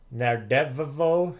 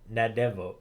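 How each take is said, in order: First: The doubled consonant is held long. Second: The doubled consonant is said short. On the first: "you actually pronounce both of them" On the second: "or is it just"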